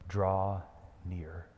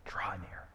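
First: Soft invitation. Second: Whispered Draw near, breathy and hushed. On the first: Preacher echoing Aslan's call, soft. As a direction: lower and much softer, drawn out. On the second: Preacher whispering Jesus' call to the congregation. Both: Shown as a demonstration. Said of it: "those are Jesus' words to you".

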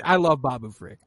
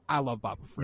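First: Said in the usual way. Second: Quieter echo. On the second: Shown as a demonstration. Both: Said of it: "Just kidding".

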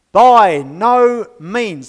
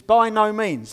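First: "By no means" drawn out very slowly and much louder, with a falling close; emphatic no. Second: Said in the usual way. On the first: Shown as a demonstration. Preacher showing the congregation Paul's emphatic no, slow and loud. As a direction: stamp out each word of "By no means". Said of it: "It's an emphatic no". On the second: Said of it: "By no means is the phrase he uses".

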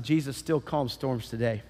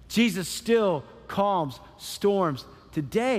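First: Said in the usual way. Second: "Jesus still calms storms today" slow, word by word; emphatic repetition. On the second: Real, not acted. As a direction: punch each word, pausing between them. Repeats the line word by word.

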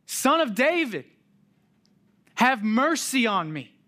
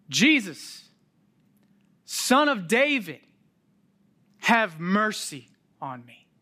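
First: Even louder and higher plea; crying out louder. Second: Loud, high plea; beggar crying out. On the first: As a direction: shout it, desperate to be heard. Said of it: "He cries out even louder". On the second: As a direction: cry out to him for mercy. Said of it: "as he cries out". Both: Retold or imitated.

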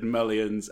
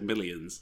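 First: "millions" said as "mullions", with an "uh" vowel; imitated mispronunciation. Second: Said in the usual way. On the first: Shown as a demonstration. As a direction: mimic the odd first vowel in "millions". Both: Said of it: "two different pronunciations there".

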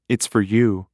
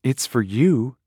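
First: Wry, teasing It's for you with stress on you; wry wife teasing her husband about the call. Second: Said in the usual way. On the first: Acted. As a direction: hand him the phone with a knowing smirk. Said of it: "wrenched a diagonal smile".

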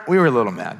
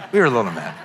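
First: Said in the usual way. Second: Owning it with a laugh; laughing admission. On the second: Real, not acted. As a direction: chuckle through the confession. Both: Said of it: "I was gonna say we weren't mad".

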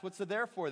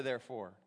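First: Said in the usual way. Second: "therefore" dropped much lower and softer; questioning therefore. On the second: Shown as a demonstration. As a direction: muse on "therefore" quietly, low. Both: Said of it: "you gotta ask".

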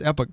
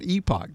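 First: "epoch" as EP-uck, short first vowel; correct short-E pronunciation. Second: "epoch" as EE-pock, long first vowel; wrong long-E pronunciation. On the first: Host giving his correct pronunciation, "epoch" as EP-uck. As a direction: say "epoch" with a short E, second syllable reduced. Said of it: "one correct pronunciation". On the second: Host rejecting a pronunciation, "epoch" as EE-pock. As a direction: say "epoch" with an EE at the front. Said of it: "but it is not epoch". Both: Shown as a demonstration.

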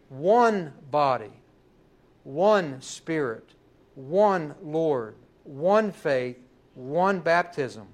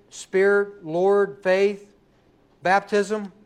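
First: "one" punched at the head of each phrase, spoken slowly; stress on ONE. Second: Each noun "Spirit", "Lord", "faith", "baptism" lifted as its own question; stress on the nouns. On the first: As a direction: lean hard on "one" every time, slowly. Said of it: "should be placed on the one". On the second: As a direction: hit each noun and leave "one" behind. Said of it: "where would you place the emphasis". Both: Shown as a demonstration.

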